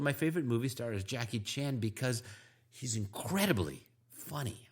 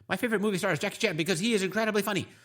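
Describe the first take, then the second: First: It is moderately paced with rhythm and intonation. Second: It is rushed, flat and too fast.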